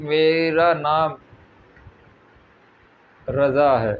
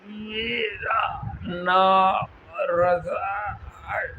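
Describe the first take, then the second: First: It is said in a relaxed, normal way. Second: It is forced out with great strain.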